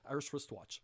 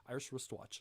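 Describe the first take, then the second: The two takes are said the same way.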